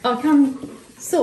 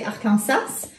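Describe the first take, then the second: First: Arkansas slowly, ending in "saw"; Arkansas with silent S. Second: Arkansas as French "ar-kan-SASS"; nasal French "an" in Arkansas; French pronunciation. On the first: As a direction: say Arkansas as "AR-kən-saw", drawn out. Working out the state's pronunciation. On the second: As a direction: say Arkansas the French way, final S sounded. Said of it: "in French they say". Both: Shown as a demonstration.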